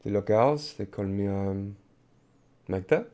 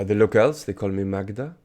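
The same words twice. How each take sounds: First: Put-on Magda in a French accent; halting French-accented English. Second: Put-on the French accent toned down; Magda's line in a less French accent; non-French accent. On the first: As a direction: introduce yourself with French-accented vowels and consonants. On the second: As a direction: repeat it without the French accent, more English sounds. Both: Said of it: "say that in a non-French accent".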